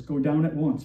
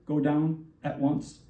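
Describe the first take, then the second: First: Said in the usual way. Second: "Go down at once" slowed, each word weighted; double imperative. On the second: Shown as a demonstration. Preacher stressing God's command to Moses, slow and weighted. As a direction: lean on "Go down at once" slowly and firmly. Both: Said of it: "when the Lord says a double imperative".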